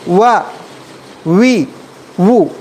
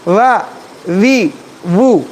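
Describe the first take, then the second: First: The sound is made with both lips only. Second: The upper teeth touch the lower lip. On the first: The speaker calls it right. "ये सही है" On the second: The speaker calls it wrong. "ये गलत है"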